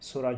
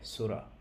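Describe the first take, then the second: First: The vowel is said short and quick. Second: The vowel is drawn out long. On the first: It means quickness. The speaker calls it wrong. "সুরা যদি বলি তাহলে শাব্দিক অর্থ যেটা, সেটা পাল্টে যাবে" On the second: It means picture. The speaker calls it right. "এটা একটু ছেড়ে টান দিয়ে বলতে হবে সুরা"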